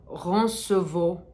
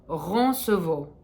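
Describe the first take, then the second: Both takes have the same delivery.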